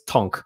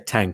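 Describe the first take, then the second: First: The vowel sounds like the 'o' in on. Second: The vowel sounds like the 'a' in cat. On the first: The speaker calls it right. "it's Tonk" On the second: The speaker calls it wrong. "I shouldn't say Tank"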